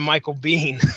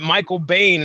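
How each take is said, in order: First: The surname rhymes with "seen". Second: The surname rhymes with "rain". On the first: The speaker calls it right. "the guy's name is pronounced Bean" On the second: The speaker calls it wrong. "I've been pronouncing it Michael Bain"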